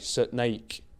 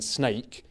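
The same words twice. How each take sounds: First: The word is said as two syllables. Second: The word is said as one syllable. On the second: "one syllable"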